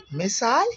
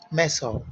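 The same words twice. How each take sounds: First: American missile as "Maasai," rising high; "Maasai," lifted sharply at the end, labelled American; American pronunciation. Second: British missile as "Meso," falling; "Meso," with a short second vowel, labelled British; British pronunciation. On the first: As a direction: say "Maasai," as "miss-eye". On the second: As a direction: say "Meso," as "MESS-ol". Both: Shown as a demonstration.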